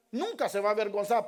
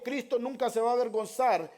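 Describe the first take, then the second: First: Nunca hit hard, the rest rushed; stress on nunca. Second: Said in the usual way. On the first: Shown as a demonstration. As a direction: punch Nunca and press on quickly.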